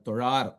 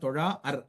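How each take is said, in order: First: The long vowel is held smoothly without a break. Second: The word is split in two with a break. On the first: The speaker calls it right. "நீட்டிச்சு தான் சொல்லணும்" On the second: The speaker calls it wrong. "தொழா அர் அப்படின்னு சொல்லக்கூடாது"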